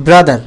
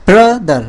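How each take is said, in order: First: Said in the usual way. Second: brother split as bra, দার; drawn-out bra, brief gap, then দার; broken in the middle. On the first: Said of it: "মাঝখান থেকে একটা". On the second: Shown as a demonstration. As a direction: break brother into two beats. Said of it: "ভেঙে যাচ্ছে".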